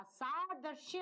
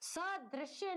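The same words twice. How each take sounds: First: Saadrishya with a long first aa; saadrishya, drawn-out first vowel; correct saadrishya. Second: Sadrishya with a short first a; sadrishya, first vowel kept short; wrong form sadrishya. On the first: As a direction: stretch the opening saa of saadrishya. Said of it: "होगा". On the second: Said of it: "नहीं होता". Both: Shown as a demonstration.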